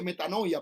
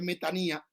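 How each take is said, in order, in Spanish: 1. La tercera sílaba tiene un sonido 'oi'. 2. La tercera sílaba tiene un sonido 'i'. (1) "la gente la mal pronuncia y dice metanoia" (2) "pero es metanía"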